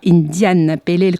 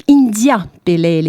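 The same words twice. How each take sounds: First: "Indian" with an audible final n, in place of India; mistaken Indian reading. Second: Said in the usual way. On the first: Shown as a demonstration. Host showing listeners a common misreading, "Indian" with final n. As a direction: say "Indian Pale Ale", sounding the extra n in "Indian". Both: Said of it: "comme on peut le lire souvent".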